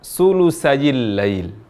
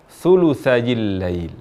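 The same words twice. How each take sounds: First: It begins with a hissing s sound. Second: It begins with a soft th sound. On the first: The speaker calls it wrong. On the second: The speaker calls it right.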